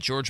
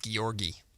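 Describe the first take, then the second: First: The surname ends on a consonant sound. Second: The surname ends on a vowel sound. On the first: This is how most people say the name. The speaker calls it wrong. "Everyone's called me [name] my entire life" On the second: This is how the owner says the name. The speaker calls it right. "It's Georgi"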